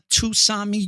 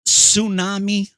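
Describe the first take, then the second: First: The word starts with a pronounced T sound. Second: The word starts without a T sound. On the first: The speaker calls it wrong. "not Tusami" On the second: The speaker calls it right. "The T is silent"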